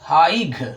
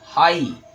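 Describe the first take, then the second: First: A g sound is heard at the end. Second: No g sound is heard at the end. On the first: The speaker calls it wrong. "कुछ लोग कहते हैं हाइग" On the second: The speaker calls it right. "सही आपका हाई है"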